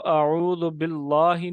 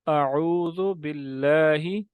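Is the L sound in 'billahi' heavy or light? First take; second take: heavy; light. First: The L in 'billahi' sounds thick and heavy. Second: The L in 'billahi' sounds thin and light. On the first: The speaker calls it wrong. "नहीं पढ़ेंगे" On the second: The speaker calls it right. "यूं पढ़ा जाएगा"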